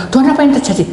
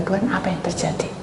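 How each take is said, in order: First: Louder, higher voiced plea; spoken prayer. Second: Breathy whispered plea to God; whispered prayer. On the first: Preacher voices the same prayer aloud, higher and louder. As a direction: say the prayer out loud. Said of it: "Dalam hati saya berdoa". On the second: Preacher whispers a silent prayer to God. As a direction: pray it under your breath. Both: Shown as a demonstration.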